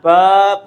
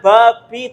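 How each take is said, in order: First: The word ends on a bare consonant. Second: The word ends with a short vowel. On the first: The speaker calls it right. "tapi disukunkan bab" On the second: The speaker calls it wrong. "bacanya bukan babi"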